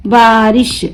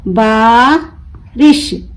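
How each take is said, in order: First: Said in the usual way. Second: बारिश split slowly, long बा, pause, रिश; broken into syllables. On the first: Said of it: "मिलाकर पढ़ें". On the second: Shown as a demonstration. Teacher breaking the word for learners, बारिश in two slow pieces. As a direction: stretch the बा of बारिश and detach रिश. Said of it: "तोड़ तोड़ कर पढ़ूंगी".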